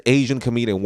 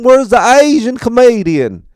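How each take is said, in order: First: Said in the usual way. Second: Loud, high Southern holler with broad vowels; drunk Southern accent. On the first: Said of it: "He just says". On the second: Retold or imitated. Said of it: "because of his accent".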